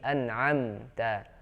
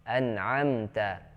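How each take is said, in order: The two takes are said the same way.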